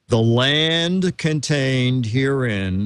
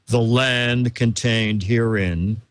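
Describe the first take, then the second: First: It is read in a plain, ordinary voice. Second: It is read in a deep, masculine put-on voice.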